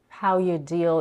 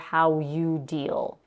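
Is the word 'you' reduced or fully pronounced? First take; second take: reduced; fully pronounced. First: The word 'you' is reduced to a short 'y'. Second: The word 'you' is pronounced fully with its vowel. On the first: "You becomes y for how you how you deal" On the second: "instead of for how you deal"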